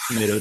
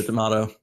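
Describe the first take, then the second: First: TOMATO with an "ay" in the middle; tomayto. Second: TOMATO with an "ah" in the middle; tomahto. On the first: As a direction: say TOMATO as "tuh-MAY-doh". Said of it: "you say tomato". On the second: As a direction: say TOMATO as "tuh-MAH-toh". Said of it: "I say tomato". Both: Shown as a demonstration.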